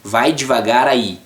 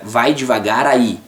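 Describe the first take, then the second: No difference in how they are said.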